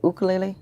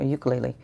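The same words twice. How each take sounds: First: "ukulele" starting with a plain OO; OO-kulele pronunciation. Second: "ukulele" starting with a Y glide; YOO-kulele pronunciation. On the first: Host asks viewer how the screen name is said, OO-kulele. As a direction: say "ukulele" as oo-kuh-LAY-lee, with no Y. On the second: Host offers viewer the other name pronunciation, YOO-kulele. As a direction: say "ukulele" as yoo-kuh-LAY-lee. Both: Shown as a demonstration. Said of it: "Is it ukulele or ukulele?".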